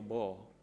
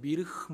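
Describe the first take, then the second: First: It is said as one short syllable. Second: It is said with several separate syllables. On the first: The speaker calls it right. "근데 이게 뭐예요? 뭐" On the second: The speaker calls it wrong. "제가 이 단어 발음 잘 모를 때는 미르흐 뭐 이랬다고요"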